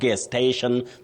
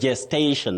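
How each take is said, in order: First: The word begins with a hard G sound. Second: The word begins with a J sound. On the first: The speaker calls it wrong. "not gestation, the way some people innocently say" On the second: The speaker calls it right. "the letter is G, but the sound is J"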